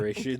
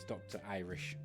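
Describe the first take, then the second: First: The name is run together as one short word. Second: The name is said in full as two words. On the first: The speaker calls it wrong. "everyone called you Drearish" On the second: The speaker calls it right. "It's Doctor Irish Dragon"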